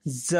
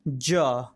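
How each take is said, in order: First: "ज" as a buzzing "za"; tongue lightly near the gum ridge, "ज" as z; nukta z sound. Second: "ज" as "ja", tongue touching the palate; lower, isolated "ज" with a stopped j; palatal j. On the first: Teacher demonstrating the nukta letter, "ज" as za. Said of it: "नुक्ता वाले ज का उच्चारण". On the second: Teacher demonstrating for learners, "ज" with a hard palatal j. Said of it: "चलिए हम ज का उच्चारण करते हैं". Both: Shown as a demonstration.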